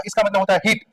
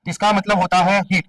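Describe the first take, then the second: First: Said in the usual way. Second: Slowed down, with weight on हीट; slow emphatic repeat. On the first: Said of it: "क्या मतलब होता है इसका?". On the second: Shown as a demonstration. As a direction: spell out हीट deliberately so it sticks. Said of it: "क्या होता है?".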